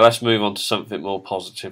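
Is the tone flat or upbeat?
flat. The tone sounds flat and unenthusiastic. "You could have said that in a more positive way"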